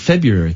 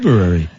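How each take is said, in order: First: The R after the B is left out. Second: The R after the B is clearly pronounced. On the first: "Some people just say" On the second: "with the R. I pronounce the R because it's there"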